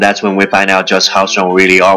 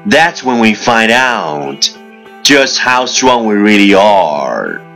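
First: It is spoken very fast in one breath. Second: It is spoken at a moderate, even pace. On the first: "一口气最快语速" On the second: "let's repeat after me"

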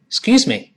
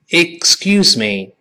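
First: The phrase is said quickly with the first syllable reduced. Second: The phrase is said slowly and fully. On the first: "快一点" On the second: "我们先跟老师先慢慢读"

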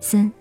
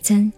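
First: The syllable begins with an s sound. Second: The syllable begins with a ts sound. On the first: "124 的三也是他" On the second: "参谋的参也是他"

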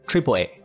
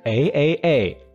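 First: It is said as the word triple, then A. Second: Each letter A is said separately three times. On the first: The speaker calls it right. "而是AAA" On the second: The speaker calls it wrong. "发音不是AAA"

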